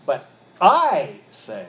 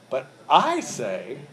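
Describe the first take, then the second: First: Slow, louder, leaning hard on I; But I say, with I punched as the authority; teacher repeating the quote with I stressed and slowed. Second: Said in the usual way. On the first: Shown as a demonstration. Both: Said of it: "the I is emphatic".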